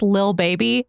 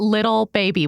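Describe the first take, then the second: First: The first word is one short syllable. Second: The first word has two full syllables. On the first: The speaker calls it right. "It's Lil Baby" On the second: The speaker calls it wrong. "not Little Baby"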